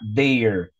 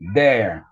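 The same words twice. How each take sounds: First: The vowel is said closed. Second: The vowel is said open. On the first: "também você pode pronunciar" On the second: "se lê aberto"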